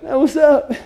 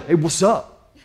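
First: It is said in a whining whimpering voice. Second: It is said in a low growling voice.

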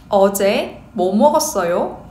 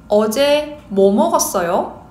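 Both takes have the same delivery.

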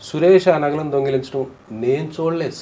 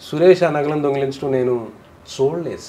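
First: The word నేను carries the emphasis. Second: The word చూడలేదు carries the emphasis. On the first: Others saw it, but not the person speaking. "నేను చూడలేదు ఇంకెవరెవరో చూశారు" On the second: It was only heard about, not actually seen. "విన్నాడు కానీ చూడలేదు"

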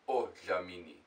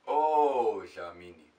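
First: The first vowel is short, not drawn out. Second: The first vowel is drawn out long. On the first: The speaker calls it wrong. "It's not odlamini" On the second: The speaker calls it right. "Like, it's odlamini"

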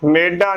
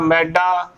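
First: The first vowel is an 'e' sound. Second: The first vowel is an 'ai' sound. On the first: The speaker calls it wrong. "ਮੰਮੇ ਲਾਵਾਂ ਮੇ, ਮੇਡਾ ਨਹੀਂ ਬੋਲਣਾ" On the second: The speaker calls it right. "ਮੰਮੇ ਨੂੰ ਦਲਾਮਾ ਮੈਂ"

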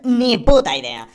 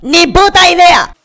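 First: It is said at a normal volume. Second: It is said much louder, almost shouted.

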